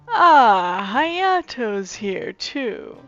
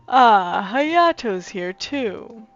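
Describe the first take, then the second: First: It is said in a higher voice. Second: It is said in a lower voice. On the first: The speaker calls it wrong. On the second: The speaker calls it right.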